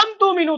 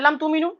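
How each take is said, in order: First: The word lam is hit with a sharp jolt. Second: The word lam is said plainly, without force. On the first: "लेकिन ये झटका जो पड़ रहा है ना" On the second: "तो हम नॉर्मल क्या बताए"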